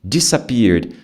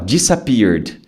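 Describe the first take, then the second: First: The first syllable starts with a different D sound. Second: The same.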